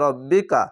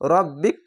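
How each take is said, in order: First: The word ends with a final vowel sound. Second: The word ends on a consonant, vowel dropped. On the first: The speaker calls it wrong. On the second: The speaker calls it right.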